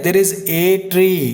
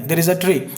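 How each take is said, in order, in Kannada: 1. Article ಒಂದು ಪೂರ್ಣ, ಒತ್ತು ಕೊಟ್ಟ 'ay' ಶಬ್ದ. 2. ಆರ್ಟಿಕಲ್ ಒಂದು ದುರ್ಬಲ, ಬೇಗ ಹೇಳುವ 'uh' ಶಬ್ದ. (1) "ಅಲ್ಲಿ ಒಂದು ಮರ ಇದೆ" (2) "ಸುಮ್ಮನೆ ಅಲ್ಲೊಂದು ಮರ ಇದೆ"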